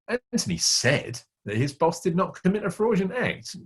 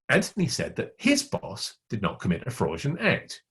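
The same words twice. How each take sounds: First: The word "said" carries the main stress. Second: The word "his" carries the main stress. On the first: The boss probably did it despite the denial. "He said he didn't do it, but the meaning is probably he did" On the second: Someone else's boss did it. "It wasn't his boss, it was somebody else's boss"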